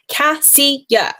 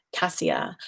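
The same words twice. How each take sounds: First: Cassia called out higher, with a falling finish; emphatic answer. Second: Cassia whispered, breathy and soft; whispered aside. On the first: Telling a viewer her hair solution, Cassia said with emphasis. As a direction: announce the word Cassia like the answer. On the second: Whispering the answer again to her viewer, cassia hushed. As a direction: breathe cassia as a little secret. Repeating her recommendation softly. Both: Real, not acted.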